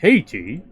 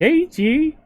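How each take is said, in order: First: It is said in a deep dad voice. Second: It is said in a higher mom voice.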